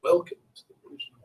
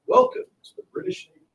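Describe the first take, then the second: First: Quick, soft, clipped-off officer's welcome; a quieter, rushed take on the official voice; official voice again. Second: Lightly voiced officer's welcome, high and airy; a hint of a pompous British officer, high and breathy; official voice. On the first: Acted. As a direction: toss it off fast like a bored official. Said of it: "it's very official". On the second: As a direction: announce it like a stiff navy officer. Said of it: "That voice, it's very official".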